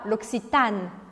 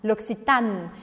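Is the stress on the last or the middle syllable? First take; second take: middle; middle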